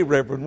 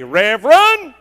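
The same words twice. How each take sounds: First: Said in the usual way. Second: "Reverend" called out loud and sharp, falling at the end; crying out Reverend. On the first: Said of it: "you wouldn't say". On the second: Retold or imitated. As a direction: shout "Reverend" like a wife catching him at the door. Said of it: "if she doesn't cry out and say".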